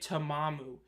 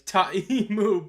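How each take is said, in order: First: The name is said with two m sounds. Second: The name is said with one m sound. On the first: The speaker calls it wrong. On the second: The speaker calls it right.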